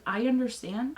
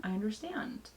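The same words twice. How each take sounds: First: Said in the usual way. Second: I understand dropped much softer; softer repeat. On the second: Real, not acted. Repeating herself to her husband, understand said softer. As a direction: let I understand fall away quietly. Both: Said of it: "repeats I understand".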